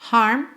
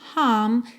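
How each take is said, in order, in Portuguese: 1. O R depois da vogal é claramente pronunciado. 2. O R depois da vogal fica silencioso. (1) "seria um sotaque mais americano" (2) "seria um sotaque mais britânico"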